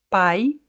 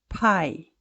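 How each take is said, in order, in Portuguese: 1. O P é suave, sem explosão de ar. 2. O P tem uma forte explosão de ar. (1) "como o P é suave" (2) "Você percebe uma explosão de ar saindo da minha boca"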